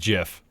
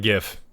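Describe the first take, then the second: First: It begins with a soft j sound. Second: It begins with a hard g sound. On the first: The speaker calls it right. "there is only one right way to say, which is GIF" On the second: The speaker calls it wrong. "It is not GIF"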